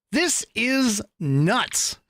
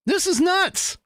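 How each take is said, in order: First: This is nuts, drawn out slowly; slow deadpan. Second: This is nuts, high and bright; high incredulous. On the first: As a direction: let This is nuts sink in slowly. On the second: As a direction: squeal This is nuts in disbelief. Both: Shown as a demonstration. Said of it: "repeats line two ways".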